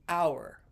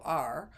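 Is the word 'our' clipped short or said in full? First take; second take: full; clipped. First: The word is said fully, with a clear vowel. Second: The word is clipped to a short 'r' sound. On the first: The speaker calls it right. "the word O U R" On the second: The speaker calls it wrong. "cut short and go R"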